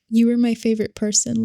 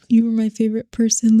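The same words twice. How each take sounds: First: It is read in the speaker's natural voice. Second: It is read in a put-on man's voice.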